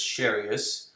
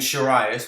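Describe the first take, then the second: First: The name is said with a Japanese-style pronunciation. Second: The name is said with an anglicized pronunciation. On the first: The speaker calls it right. "it's Sharius" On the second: The speaker calls it wrong. "which was stupid and wrong"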